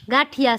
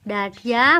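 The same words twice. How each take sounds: First: Said in the usual way. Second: ગાંઠિયા drawn out, rising at the end; word demonstration. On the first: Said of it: "શું કહેવાનું?". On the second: Shown as a demonstration. Mother prompting her child to say the word, drawn-out ગાંઠિયા. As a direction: stretch out ગાંઠિયા with a lifted final syllable. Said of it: "બોલ તો".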